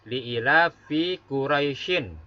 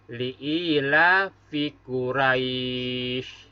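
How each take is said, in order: First: The last word ends with an -in syllable. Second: The last word ends on a bare consonant. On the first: This is the full written form. "Tulisannya adalah" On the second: The reader stops at this word. "Begitu cara bacanya"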